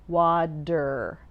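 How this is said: The T sounds like D, with strong R. "I pronounce the T as a D"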